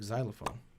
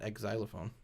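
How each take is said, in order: First: The word starts with a plain z sound. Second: The word starts with the letter name eks. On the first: The speaker calls it right. "you don't pronounce the X. It's like xylophone" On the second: The speaker calls it wrong. "It's not X-xylophone"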